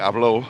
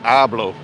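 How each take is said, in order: First: The stress is on the last syllable. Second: The stress is on the first syllable. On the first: Someone else spoke. The speaker calls it wrong. "you don't say hablo for for I speak" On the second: I speak. The speaker calls it right. "That you say hablo"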